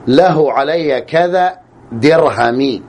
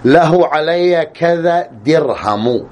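First: The last word ends in a short i vowel. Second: The last word ends in a short u vowel. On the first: "الجر" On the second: "الرفع"

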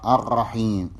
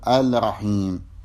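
First: The l merges into the following r sound. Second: The l is clearly sounded before r. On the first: The speaker calls it right. "وهكذا الرحيم" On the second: The speaker calls it wrong. "ولا تقول الرحيم"

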